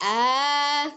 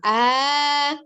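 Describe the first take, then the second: The two takes are said the same way.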